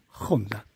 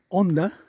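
First: The word begins with a harsh j sound. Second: The word begins with a silent h. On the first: "ellos lo pronuncian Honda" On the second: "la H muda"

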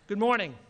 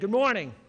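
First: It is said calmly, with little energy. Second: It is said loudly, with rousing energy.

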